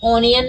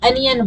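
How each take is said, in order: First: The first vowel sounds like 'o'. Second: The first vowel sounds like 'a'. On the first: The speaker calls it wrong. "ओनियन नहीं बोलते" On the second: The speaker calls it right. "अनियन बोलते हैं। तो यहाँ का ओ देखा, आ निकला"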